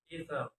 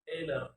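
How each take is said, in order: First: Said in the usual way. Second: "ether" with d for th; learner's mispronunciation. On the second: Shown as a demonstration. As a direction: say "ether" as "eeder". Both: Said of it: "is pronounced".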